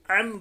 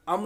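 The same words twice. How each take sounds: First: "अम" opened with a squeezed throat ain; correct ain. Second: "अम" with a plain hamza-like opening; ain said wrongly. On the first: Teacher shows the right way, "अम" with throaty ain. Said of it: "आइन की आवाज़ different होनी चाहिए हमज़ा से". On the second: Teacher shows the mistake, "अम" with plain vowel start. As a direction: say "अम" without the throat squeeze. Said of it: "अम नहीं पढ़ेंगे". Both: Shown as a demonstration.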